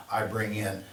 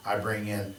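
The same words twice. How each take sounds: The two takes are said the same way.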